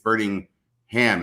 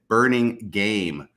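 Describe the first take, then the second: First: The name ends with a 'ham' sound. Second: The name ends with a 'game' sound. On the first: The speaker calls it right. "it's burning ham" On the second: The speaker calls it wrong. "I totally mispronounced Kay Burningham's last name"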